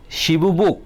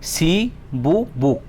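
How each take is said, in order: First: Said in the usual way. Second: "Shibu buk" very slow, as shi, bu, buk with gaps; syllable by syllable. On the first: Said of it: "kaibaso kokthor tong". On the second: Shown as a demonstration. Teacher showing a word's sound parts, "Shibu buk" in three slow pieces. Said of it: "khorang part part part".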